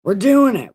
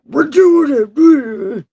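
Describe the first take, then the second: First: Higher, louder self-rally; psyched-up. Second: High, loud, slow cry; drawn-out wail. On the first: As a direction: push yourself into it, loudly. Psyching up before reading on. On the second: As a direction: wail it out, stretching the words. Repeats it, escalating into a wail. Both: Real, not acted.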